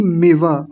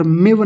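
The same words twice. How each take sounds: First: मिव as mi-va with the final a; correct full मिव. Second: मिव ending on a bare v; wrong clipped मिव. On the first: Teacher correcting the mistake, मिव with full va. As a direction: sound both syllables of मिव. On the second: Teacher showing the mistake, मिव without its last vowel. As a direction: cut मिव to one syllable. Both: Shown as a demonstration. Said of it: "मिव नहीं".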